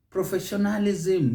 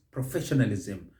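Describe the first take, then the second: First: "Professionalism" as professio-NA-li-ZIM, higher; wrong sing-song ending. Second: "professionalism" as pro-FESH-nalizm, lower; correct stress. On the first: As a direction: lilt on the end of "Professionalism". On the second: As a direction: hit FESH in "professionalism", light ending. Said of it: "it's professionalism". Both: Shown as a demonstration.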